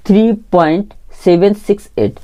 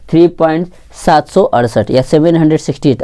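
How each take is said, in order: First: seven six eight read as three separate digits. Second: Digits after point read as सात सौ अड़सठ or seven hundred sixty eight; whole-number misreading. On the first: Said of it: "इसको हम लोग पढ़ेंगे". (दशमलव के बाद एक-एक अंक अलग पढ़ते हुए) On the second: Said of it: "ऐसा नहीं पढ़ेंगे". (दशमलव के बाद पूरी संख्या की तरह पढ़ते हुए) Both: Shown as a demonstration.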